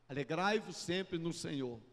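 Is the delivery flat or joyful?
flat. It is said flatly, without feeling. The words are recited without conveying their message. The speaker calls it wrong. "Eu estou falando, mas eu não estou comunicando"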